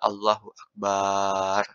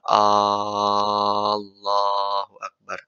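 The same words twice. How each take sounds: First: The vowel after the b is lengthened. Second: The opening vowel of Allah is lengthened. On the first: "Dipanjangkan baknya nggak boleh" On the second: "Nggak boleh memanjangkan hamzahnya"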